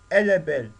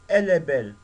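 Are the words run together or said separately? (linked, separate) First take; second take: linked; linked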